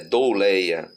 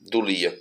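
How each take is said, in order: First: The word is said with the Greek pronunciation. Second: The word is said with the Latin pronunciation. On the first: This is the actual word in the Greek text. The speaker calls it right. "Não é esta palavra, é douleia" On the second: This is the Latin term, not the word in the text. The speaker calls it wrong. "como a pronúncia da palavra em latim"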